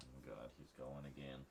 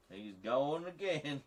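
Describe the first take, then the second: First: Said in the usual way. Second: Slow, high, loud Southern drawl; hammed-up Southern accent, stretched out. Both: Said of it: "doing one of those deeply offensive Southern stereotype accents".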